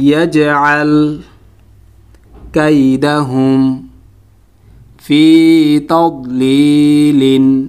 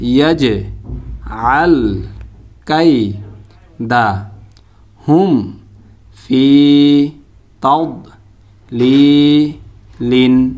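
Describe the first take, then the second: First: Each word is said smoothly as one unit. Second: Each syllable is said separately with breaks between. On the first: "এখন শব্দ শব্দ উচ্চারণ করব" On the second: "এটাকে ভাঙা ভাঙা উচ্চারণ বলা হয়"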